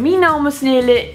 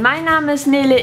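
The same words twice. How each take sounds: First: It is spoken in Low German dialect. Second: It is spoken in Standard High German. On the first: "Und jetzt nochmal auf Platt" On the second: "Einmal auf Hochdeutsch"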